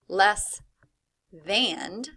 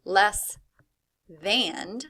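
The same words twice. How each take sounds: First: The second word is said oddly to sound like 'and'. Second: The same.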